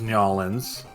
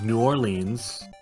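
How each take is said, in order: First: The name is squeezed down to two syllables. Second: The name is said with some syllables squeezed.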